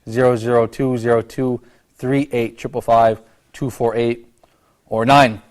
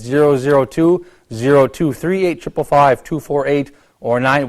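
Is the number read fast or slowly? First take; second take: slowly; fast. First: The number is read slowly. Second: The number is read fast.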